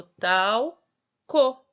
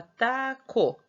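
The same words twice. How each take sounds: First: Talco very slow and loud, tau, pause, co; added L, syllable by syllable. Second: Taco said slowly as ta, then co; syllable by syllable. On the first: Teacher showing what the L changes, talco in slow syllables. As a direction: stretch tal like tau, then a separate co. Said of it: "Aí não ficou mais tá, ficou talco". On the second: Teacher joining the two syllables, taco said slowly. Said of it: "Aí ficava taco". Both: Shown as a demonstration.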